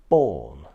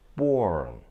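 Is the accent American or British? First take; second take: British; American. First: It is said in a British accent, no R. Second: It is said in an American accent, with R. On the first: "we should say born" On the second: "in American English, we do pronounce the R sound"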